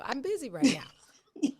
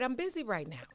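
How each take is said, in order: First: It is said in an imitated small child's voice. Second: It is said in the speaker's ordinary adult voice.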